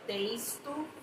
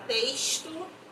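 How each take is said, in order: First: The x sounds like the s in festa. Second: The word is said in a Carioca accent. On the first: The speaker calls it right. "É texto, festa, é o mesmo som" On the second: The speaker calls it wrong. "cuidado com o nosso carioquês. Que a gente fala texto, experiência e não é"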